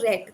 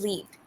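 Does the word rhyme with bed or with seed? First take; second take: bed; seed. First: The vowel is short, rhyming with bed. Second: The vowel is long, rhyming with seed. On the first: The speaker calls it right. "the past tense" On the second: The speaker calls it wrong. "Earlier you said"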